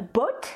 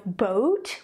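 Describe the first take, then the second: First: "boat" with a short pure o; short French-accented "boat"; French-accented short vowel. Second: "boat" with a long gliding vowel; drawn-out English "boat"; English diphthong. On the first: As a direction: cut the glide from "boat", French-style. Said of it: "we say". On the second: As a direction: glide from o to oo in "boat". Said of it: "instead of boat". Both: Shown as a demonstration.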